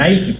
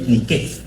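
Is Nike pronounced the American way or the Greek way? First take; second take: American; Greek. First: The name is said the American way. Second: The name is said the Greek way. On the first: "en Estados Unidos le pronuncian Nike" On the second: "en griego es Nike"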